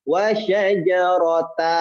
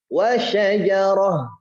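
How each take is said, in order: First: The word ends with a t and a vowel. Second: The word ends with an h sound. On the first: The speaker calls it wrong. "jangan dibaca wa syajarata" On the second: The speaker calls it right. "menjadinya huruf H"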